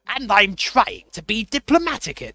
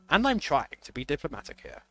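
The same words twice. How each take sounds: First: It is said in a put-on Count Dracula voice. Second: It is said without the Count Dracula voice.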